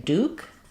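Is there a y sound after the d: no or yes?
no. No y sound follows the d. "we drop the yes sound after D"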